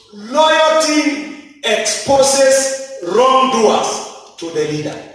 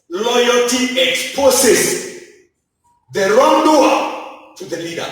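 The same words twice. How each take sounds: First: Slow, stressed principle. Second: Slow restatement. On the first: Preacher stating a principle slowly. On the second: Preacher restating the principle. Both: Acted.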